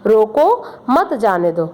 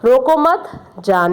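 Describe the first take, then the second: First: There is a pause right after 'roko'. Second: There is no pause right after 'roko'. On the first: Stop the person; do not let them go. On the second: Do not stop the person; let them go.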